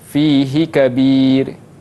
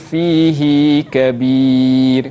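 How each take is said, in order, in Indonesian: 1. Vokal akhir fihi dibaca pendek. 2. Vokal akhir fihi dibaca panjang. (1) "Kita baca fihi kabir" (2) "baca dengan ... dia ada lanjut sedikit"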